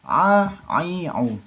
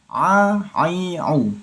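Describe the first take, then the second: No difference in how they are said.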